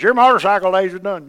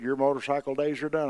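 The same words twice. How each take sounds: First: Much louder and higher, the wife laying down the law; wife overruling her husband, loud and final; wife's stern order. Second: Said in the usual way. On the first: Retold or imitated. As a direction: bark it like the boss of the house. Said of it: "my wife goes". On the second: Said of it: "and the doctor said".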